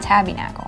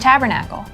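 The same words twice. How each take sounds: First: The word is said like 'tabby nickel'. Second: The word is said as standard 'tabernacle'. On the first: The speaker calls it wrong. "not tabernacle" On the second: The speaker calls it right. "the tabernacle"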